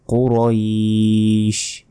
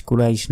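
First: কুরাইশ as a slow "qo-roiiish", thick q and long ending; heavy qaf. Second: কুরাইশ said quickly as "ku-raish", thin k; short, unstretched everyday "kuraish"; wrong pronunciation. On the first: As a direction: hold the end of কুরাইশ in recitation. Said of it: "কফের উচ্চারণ মোটাভাবে উচ্চারণ". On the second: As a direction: say কুরাইশ with a light k and no held vowel. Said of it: "কুরাইশ নয়". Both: Shown as a demonstration.

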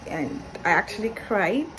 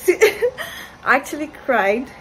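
First: Said in the usual way. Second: Laughing through the words, slow and higher. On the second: Real, not acted. Vlogger laughing at her own tears. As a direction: laugh at yourself while admitting it.

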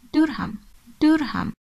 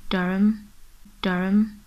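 First: Durham with a full "ham", both syllables sounded; as spelt pronunciation. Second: Durham as DURR-um, silent h; local pronunciation. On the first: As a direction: say Durham as DUR-HAM, pitched high. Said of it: "how do you pronounce this word". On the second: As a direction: swallow the end of Durham to "um". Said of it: "The correct pronunciation is". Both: Shown as a demonstration.

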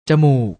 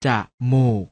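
First: Said in the usual way. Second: จะมูก split into จะ and มูก; short จะ, clear gap, then มูก; syllable by syllable. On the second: Shown as a demonstration. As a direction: sound out จะมูก in two beats. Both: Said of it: "อ่านว่า".

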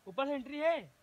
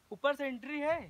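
Both takes have the same delivery.

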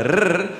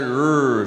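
First: "r" as a trilled roll; South African rolled r. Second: "r" as a curled, untrilled "errr"; American r. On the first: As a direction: roll the "r" on the tongue. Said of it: "I'll pronounce it a". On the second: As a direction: hold the "r" American-style, no trill. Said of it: "they'll pronounce it". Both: Shown as a demonstration.

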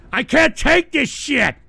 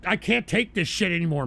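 First: Fed up. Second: Said in the usual way. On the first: Real, not acted. Fed up, repeats it harder.

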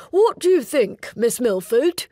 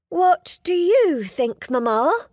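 First: A keen suitor asking eagerly. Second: Higher, slow, forced-bright question; a polite young lady stalling with a bright smile. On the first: Suitor speaks, voiced character. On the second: Heroine deflects question to mother. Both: Acted.

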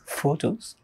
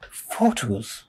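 First: PHOTOS soft and higher, rising at the end; questioning echo. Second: PHOTOS soft, dropping at the end; falling repeat. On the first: Speaker echoing the audience's answer, PHOTOS as a soft rising question. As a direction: say PHOTOS as a quiet question with a lifted ending. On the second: Speaker weighing the audience's answer, PHOTOS soft with a falling end. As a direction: say PHOTOS quietly with a settled, falling tune. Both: Acted.

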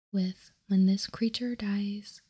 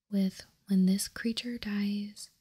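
No difference in how they are said.

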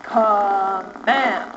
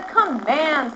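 First: Low, drawn-out commanding chant; slow, low word of command; in charge. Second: Said in the usual way. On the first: Shown as a demonstration. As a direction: stretch it out with firm authority. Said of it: "you're so in charge". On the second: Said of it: "Watch me".

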